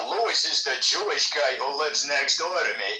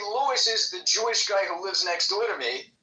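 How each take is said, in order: First: It is said in a loaded, disparaging tone. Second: It is said in a plain, neutral tone. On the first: It implies something negative about the neighbor. "it can mean something different" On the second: It simply states a fact about a neighbor. "it means one thing"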